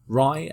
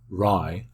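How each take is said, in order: First: The syllable is said at a neutral pitch. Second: The syllable is said at a low pitch. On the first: It means to haul, transport or carry. "at a neutral pitch" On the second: It means a year. "at a low pitch"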